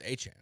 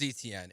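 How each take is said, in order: First: The name is said like 'Achan'. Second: The name is said like 'Etienne'. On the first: The speaker calls it right. "That's not how you say my name. It's Achan" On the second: The speaker calls it wrong. "Like his name is Etienne"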